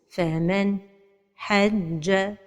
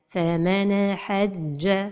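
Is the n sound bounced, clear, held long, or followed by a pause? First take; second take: pause; bounced. First: There is a pause right after the n sound. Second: The n sound ends with a bouncing echo. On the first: "La troisième erreur, c'est la pause" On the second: "La première erreur, c'est al-qalqala de an-noun as-sakina"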